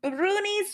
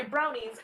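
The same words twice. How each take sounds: First: Brownies said broonies, long oo vowel, Scottish style; Scottish pronunciation. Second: Said in the usual way. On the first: Shown as a demonstration. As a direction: say brownies as broonies, Scots oo sound. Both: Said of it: "I'm using it in the Northern Scottish accent".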